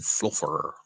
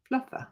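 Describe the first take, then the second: First: Fluffer with a clear r at the end; demonstrated pronunciation. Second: Fluffer tried out high and soft, ending in an open "uh"; attempted imitation. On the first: Shown as a demonstration. Speaker showing friend how to say Fluffer, demonstrated pronunciation. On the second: Friend checking how Fluffer is said, tentative imitation. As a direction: softly copy Fluffer with a light, r-less ending. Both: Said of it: "How do you say it?".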